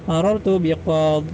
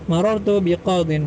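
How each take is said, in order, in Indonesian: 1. Kata terakhir berakhir dengan huruf d mati. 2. Kata terakhir berakhir dengan bunyi in.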